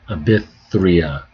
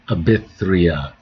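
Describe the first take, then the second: No difference in how they are said.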